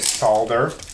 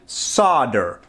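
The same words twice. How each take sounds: First: The word is said with an L sound. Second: The word is said without an L sound. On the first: This is how it is said in the UK. "I've never heard an American uh, say solder" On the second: This is how Americans say it. "Here in America, we pronounce it solder"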